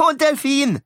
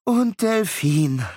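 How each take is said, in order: First: Put-on much higher, louder insistent boy; eager demand. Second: Slow, reluctant giving in; resigned sigh. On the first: Beckett adding the dolphin, high eager demand. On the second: Acted. Miles giving in to his brother, slow resigned. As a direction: concede it with a weary sigh. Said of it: "Miles seufzte".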